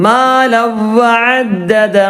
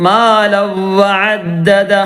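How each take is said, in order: The two takes are said the same way.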